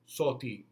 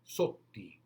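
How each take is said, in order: First: The middle consonant is short and quick. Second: The middle consonant is held noticeably longer. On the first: The speaker calls it wrong. "you don't go soti" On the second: The speaker calls it right. "a little bit longer"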